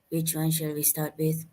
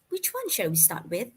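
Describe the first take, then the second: First: It is said unconfidently with poor intonation. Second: It is said confidently with lively intonation. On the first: The speaker calls it wrong. "Don't say" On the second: The speaker calls it right. "Learn how to say it confidently"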